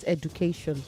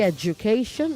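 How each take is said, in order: First: The middle consonant is a plain d. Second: The middle consonant sounds like a j. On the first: The speaker calls it wrong. "not education" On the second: The speaker calls it right. "Say education"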